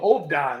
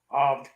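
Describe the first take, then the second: First: The name ends with an extra 'da' syllable. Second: The name is a single short syllable. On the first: The speaker calls it wrong. "I always want to go Hovda" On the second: The speaker calls it right. "it's just Hov Aquatics"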